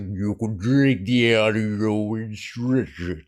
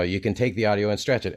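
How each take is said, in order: First: The voice is stretched out, slow and deep. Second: The voice sounds natural and unprocessed. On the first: "and then I do that" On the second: "if I just say"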